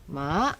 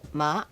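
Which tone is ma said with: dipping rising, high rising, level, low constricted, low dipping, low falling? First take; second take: dipping rising; low constricted. First: The pitch dips and then rises. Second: The pitch is low and the throat constricted. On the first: It means horse. "dipping rising, horse" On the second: It means rice seedling. "low constricted, rice seedling"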